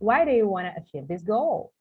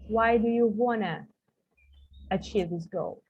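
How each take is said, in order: First: The T is kept, giving a full 'want to'. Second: The T is dropped, giving a smooth 'wanna'. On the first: It sounds British. "British one" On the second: It sounds more American and fluent. "you can just swallow this letter T. They don't say that. They say wanna"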